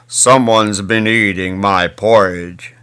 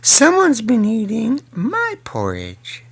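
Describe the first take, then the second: First: It is said in a very big voice. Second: It is said in a medium-sized voice. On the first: "said in his great big voice" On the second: "said in her mid-sized voice"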